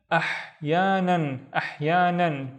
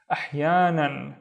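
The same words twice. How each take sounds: First: "ahyanan" drawn out slowly with a throaty h; slow, careful "ahyanan"; slow blend. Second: Said in the usual way. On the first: Shown as a demonstration. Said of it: "slowed word demo". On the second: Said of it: "final repeat".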